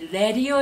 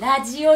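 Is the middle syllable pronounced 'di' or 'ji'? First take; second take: di; ji. First: The middle syllable is pronounced 'di'. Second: The middle syllable is pronounced 'ji'. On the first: The speaker calls it right. "ラディオ読みでお願いしたい" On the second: The speaker calls it wrong. "ラジオ読みではなくて"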